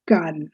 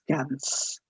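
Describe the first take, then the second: First: "Cannes" as "kan", silent S; French pronunciation. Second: "Cannes" said as "kans", S sounded; wrong pronunciation. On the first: Teacher giving learners the correct festival town name, French pronunciation. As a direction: say Cannes ending on the N. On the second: Teacher warning learners never to say it so, wrong pronunciation. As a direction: say Cannes with a final S. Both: Shown as a demonstration. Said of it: "never pronounce it as Cannes".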